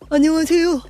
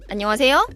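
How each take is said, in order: First: Breath rushes out, making the voice breathy. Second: Breath is held back, making the voice steady. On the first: The singer took in more breath than they can hold. The speaker calls it wrong. "숨을 많이 마시게 되고 저장할 수 없게 되면" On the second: The breath is held and controlled. The speaker calls it right. "원래는 이 상태죠"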